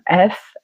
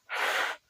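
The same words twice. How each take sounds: First: The letter is said as its full name. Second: The letter is said as its bare sound. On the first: The speaker calls it wrong. "ne jamais dire le nom des lettres comme F" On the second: The speaker calls it right. "mais dites leur son F"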